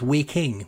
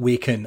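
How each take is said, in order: First: The word ends with an 'ing' sound. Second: The word ends with an 'en' sound. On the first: The speaker calls it right. "it's Waking with an I-N-G at the end" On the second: The speaker calls it wrong. "I have been saying this wrong my entire life"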